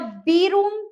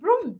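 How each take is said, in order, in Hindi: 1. यह अक्षर के नाम 'bee' से शुरू होता है। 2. यह सादी, छोटी 'b' ध्वनि से शुरू होता है। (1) "ऐसे नहीं बोलते ना" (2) "हम बोलते हैं ब्रूम"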